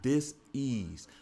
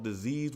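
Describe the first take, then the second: First: It is said with a pause inside. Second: It is said as one word without pause.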